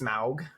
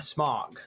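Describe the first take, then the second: First: The vowel differs from the word smog. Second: The vowel sounds like the word smog. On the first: The name follows Quenya pronunciation rules. The speaker calls it wrong. "The Sauron language Quenya says it's Smaug" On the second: The name comes from the language of men and hobbits. The speaker calls it right. "It's pronounced sma- smog, like the like smog in in uh, smoky smog"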